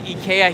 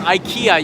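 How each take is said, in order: First: It is pronounced the Japanese way. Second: It is pronounced the American English way. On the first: This is how people say it in Japan. "We say IKEA here in Japan" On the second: This is how people say it in the United States. "IKEA you would say in the United States"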